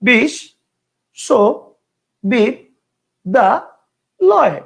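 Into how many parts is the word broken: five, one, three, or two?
five. The word is broken into five separate parts. "পাঁচটা"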